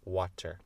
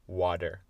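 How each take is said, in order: First: The middle consonant is a clear t sound. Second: The middle consonant sounds like a soft d. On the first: "Je dis pas water" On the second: "je dis water avec d"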